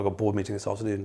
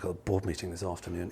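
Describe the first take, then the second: First: The voice sounds calm and matter-of-fact. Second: The voice sounds weary and full of dread. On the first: The meeting is routine. "they say it like that" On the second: The meeting is something to be dreaded. "it's slightly less attractive than going to the hygienist"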